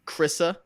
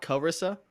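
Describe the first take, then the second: First: "Carissa" squeezed into two syllables, Criss-uh. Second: "Carissa" with an extra vowel, Kuh-riss-uh; three syllables. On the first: Checking the name's pronunciation for listeners, "Carissa" in two syllables. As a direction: say "Carissa" as Crissa, no vowel after the C. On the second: Host showing the rejected pronunciation, "Carissa" as Co-rissa in three syllables. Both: Shown as a demonstration. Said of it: "I think two syllables".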